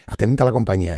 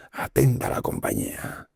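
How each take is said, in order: First: Loud military call, pitched higher; lieutenant calling the barracks to attention; barked command. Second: Breathy whisper, drawn out slowly; slow whispered call to attention; whispered command. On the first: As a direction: snap it out like a lieutenant entering. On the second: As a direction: hush it like a secret order. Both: Retold or imitated. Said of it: "y decía esta frase".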